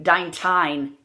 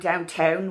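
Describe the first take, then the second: First: The accent vowel is pushed to an extreme. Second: The accent vowel is toned down, less extreme. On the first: Listeners would not understand it. The speaker calls it wrong. "if I go downtown and I go downtown, downtown, you won't under, be understood" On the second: Listeners can still understand it. The speaker calls it right. "Don't go as far as they really do"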